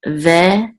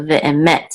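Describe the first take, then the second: First: VE, pause, EMET; syllable by syllable. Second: Ve'emet joined up, final MET stressed. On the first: Teacher introducing a Hebrew word, ve'emet in separated syllables. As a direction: break ve'emet after VE with a long gap. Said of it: "this is ve'emet". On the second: Teacher showing the accent, stress on final MET in ve'emet. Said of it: "accent mark is on the last syllable". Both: Shown as a demonstration.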